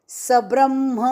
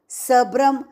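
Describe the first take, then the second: The two takes are said the same way.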